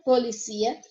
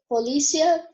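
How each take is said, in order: First: Polícia said as poliCÍa; stress on CI. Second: Polícia with the stress on LÍ. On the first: Teacher gives the Spanish take, stress on CI in polícia. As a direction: say polícia stressed on the final I, rising. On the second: Teacher gives the Portuguese take, stress on LÍ in polícia. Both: Shown as a demonstration. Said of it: "vai mudar".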